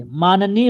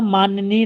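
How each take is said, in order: First: माननीय as maa-na-neey, no y in the middle; correct form demonstrated. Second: माननीय with a y glide, maan-ya-neey; wrong form demonstrated. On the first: Teacher repeats the right word, correcting. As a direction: keep the middle of माननीय a clean "na". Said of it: "होता है". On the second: Teacher repeats the rejected word, demonstrating an error. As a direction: add a y in the middle of माननीय. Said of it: "नहीं होता है". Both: Shown as a demonstration.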